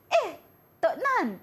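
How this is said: It is said in a surprised tone.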